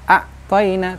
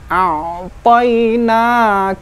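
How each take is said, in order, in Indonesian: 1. Bunyi ain berhenti mendadak, tanpa terbawa ke depan. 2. Bunyi ain sedikit terbawa ke depan sebelum lanjut. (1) "tidak serta-merta berhenti" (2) "ada maju sedikit"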